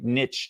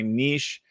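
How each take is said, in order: First: The word rhymes with itch. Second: The word does not rhyme with itch. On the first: This is the pronunciation the speaker prefers. "I think niche just sounds better" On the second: This is the technically correct pronunciation. "technically you're supposed to say niche"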